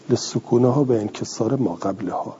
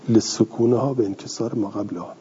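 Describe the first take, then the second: No difference in how they are said.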